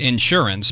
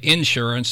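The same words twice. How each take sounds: First: It is said the upstate New York way. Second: It is said the southeastern Ohio way. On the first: "my background is more East Coast, more upstate New York. But I've always said insurance" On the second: "here in Ohio, especially in more southeastern Ohio, they do kind of say insurance"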